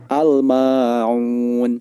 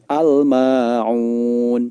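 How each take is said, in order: First: The L is pronounced clearly before the M. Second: The L is pronounced clearly before the M.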